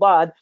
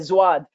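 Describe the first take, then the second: First: It begins with a heavy, emphatic d sound. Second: It begins with a z-like sound. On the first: The speaker calls it right. "struggle pronouncing bad" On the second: The speaker calls it wrong. "some people say zwad"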